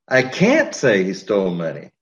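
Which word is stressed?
can't. The word "can't" is stressed. Saying it is not allowed.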